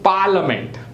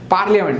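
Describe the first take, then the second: First: The a after li is silent, not sounded. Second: The a after li is sounded as a syllable. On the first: The speaker calls it right. "but it is parliament" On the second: The speaker calls it wrong. "पार्लियामेंट લખીએ"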